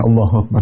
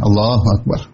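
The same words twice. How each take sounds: First: It is said lazily, without energy. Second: It is said fully and with energy.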